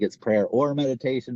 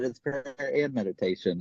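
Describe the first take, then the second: First: "or" stressed to set up a contrast. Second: "and" stressed against the mistaken "or". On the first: Host correcting a common idea about step eleven, stress on "or". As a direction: lean on "or" as the mistaken choice. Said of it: "a lot of people think it's prayer or meditation". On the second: Host correcting a common idea about step eleven, stress on "and". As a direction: lean on "and" as the correction. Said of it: "but it's prayer and meditation". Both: Shown as a demonstration.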